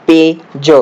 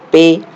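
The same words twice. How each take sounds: First: "पेज" stretched very slowly, sounds pulled apart; slow spelled-out word. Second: Said in the usual way. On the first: Shown as a demonstration. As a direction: pull "पेज" apart so the class hears each sound. ("पेज" बहुत धीरे, हर ध्वनि अलग करके) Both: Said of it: "क्या उच्चार हो रहा है?".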